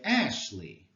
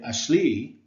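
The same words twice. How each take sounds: First: The stress is on the first syllable. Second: The stress is on the second syllable. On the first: The speaker calls it right. "we emphasize the first syllable" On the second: The speaker calls it wrong. "We don't say Ashley"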